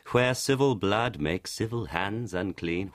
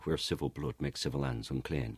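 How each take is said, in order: First: Slow, drawn-out modern delivery; slow deliberate reading. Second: Quick, quieter and lower in original accent; faster original pace. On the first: Showing the slow modern stage delivery of the line. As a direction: stretch every word of the line. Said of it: "I was speaking quite quickly there". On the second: Showing the faster Elizabethan delivery of the line. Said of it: "it's also faster". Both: Shown as a demonstration.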